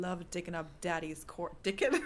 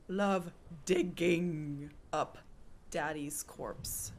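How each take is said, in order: First: "dicking" with a hard k sound in place of g; accent turns digging into "dicking"; accented slip. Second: Slow, deliberate "digging" with a clear g; overcareful redo, "digging" said slowly with no k sound; careful correction. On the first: Real, not acted. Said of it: "That was my accent. Instead of digging, I said dicking". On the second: Shown as a demonstration. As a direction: spell it out slowly, a voiced g in "digging". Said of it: "Instead of digging, I said dicking".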